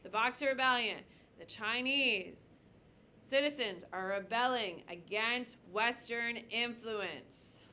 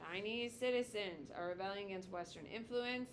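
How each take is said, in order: First: Slow, emphatic dictation for note-taking; teacher dictating a key definition. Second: Said in the usual way. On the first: Shown as a demonstration. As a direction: lay each word down slowly so they can write it. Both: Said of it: "You should probably write this down".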